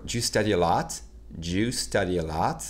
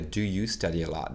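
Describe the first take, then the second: First: "Do you study a lot?" run together fast, do you swallowed to ju. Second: Said in the usual way. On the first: Shown as a demonstration. Teacher showing the swallowed fast "Do you" to students. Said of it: "balancez ça comme ça". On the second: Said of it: "pour dire".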